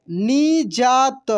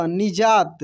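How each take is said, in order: First: निजात slowly as ni, jaa, ta; syllable by syllable. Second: Said in the usual way. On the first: Shown as a demonstration. Teacher reading for learners, निजात slowly syllable by syllable. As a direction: stretch out each syllable of निजात. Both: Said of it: "अब direct पढ़ते हैं".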